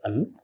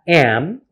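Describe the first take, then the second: First: The word is said weakly with a reduced vowel. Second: The word is said fully with a clear vowel.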